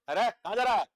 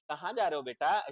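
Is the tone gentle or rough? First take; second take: rough; gentle. First: It is said roughly and harshly. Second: It is said gently and lovingly.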